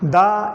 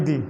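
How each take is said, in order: First: The vowel is an open ah sound. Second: The vowel is a long drawn-out ee sound. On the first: The speaker calls it wrong. "दा इसको पढ़ना बिल्कुल गलत है" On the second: The speaker calls it right. "बड़ी दी"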